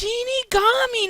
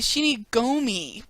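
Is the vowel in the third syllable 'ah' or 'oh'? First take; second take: ah; oh. First: The third syllable has an 'ah' vowel. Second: The third syllable has an 'oh' vowel. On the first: The speaker calls it right. "it's Shinigami" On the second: The speaker calls it wrong. "They say Shinigomi"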